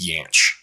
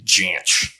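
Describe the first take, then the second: First: The name begins with a Y sound. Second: The name begins with a hard J sound. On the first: Most people say it this way. "Apparently the more common way is Yanch" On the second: The bearer of the name said it this way. "he pronounced it with a hard J"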